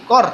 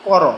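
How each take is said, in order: First: কর closed on the r, "kor"; silent final vowel. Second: কর said in two syllables, "ko-ro"; open final vowel. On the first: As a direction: end কর on a bare র, one syllable. (কর, হসন্ত দিয়ে "কর্") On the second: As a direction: sound the vowel after র in কর. (কর, শেষে স্বরসহ "করো") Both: Shown as a demonstration. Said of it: "রর নিচে যদি হসন্ত দেওয়া হয়".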